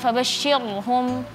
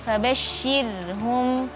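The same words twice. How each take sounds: First: The r and sh sounds are thick and heavy. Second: The r and sh sounds are thin and light. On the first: The speaker calls it wrong. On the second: The speaker calls it right. "ro-nya usahakan di situ tipis"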